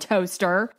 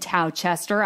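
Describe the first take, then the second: First: It has two syllables, sounding like toaster. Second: It has three syllables, sounding like tow-chester. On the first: The speaker calls it right. "I mean Toaster" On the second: The speaker calls it wrong. "spelled like Towchester"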